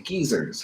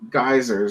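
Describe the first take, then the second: First: It is said with a British pronunciation. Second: It is said with an American pronunciation.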